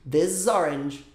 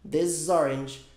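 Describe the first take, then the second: No difference in how they are said.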